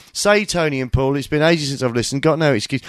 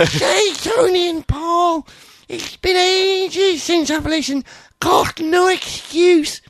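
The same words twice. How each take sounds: First: Said in the usual way. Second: Very high, slow shouted read-out; drawn-out mock shout. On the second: Host rereads a listener's email, slow high shouting. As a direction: stretch every word out in a high yell.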